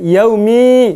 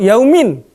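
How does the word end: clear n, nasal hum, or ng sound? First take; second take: nasal hum; clear n. First: The ending is a hidden, nasalized hum. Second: The word ends with a clear n. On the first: The speaker calls it right. "Dia dibaca ikhfa" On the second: The speaker calls it wrong. "atau yaumin"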